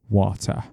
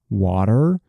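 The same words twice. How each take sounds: First: It is said with a British accent. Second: It is said with an American accent. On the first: "in British accent, we would normally pronounce them like this" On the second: "in American English, we pronounce them"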